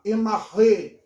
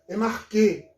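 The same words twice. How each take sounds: First: "enarré" with a guttural r sound, no k; Erasmian pronunciation. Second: "Enarquê" with a hard k, stressed final ê; reconstructed Attic pronunciation. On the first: Professor demonstrating variant Greek pronunciations, Erasmian "enarré". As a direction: say "enarré" the Erasmian way, stressed ending. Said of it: "seria uma pronúncia mais erasmiana". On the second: Professor showing his preferred Attic reading, "Enarquê". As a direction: say "Enarquê" with k for the chi. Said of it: "existe a pronúncia ática reconstituída". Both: Shown as a demonstration.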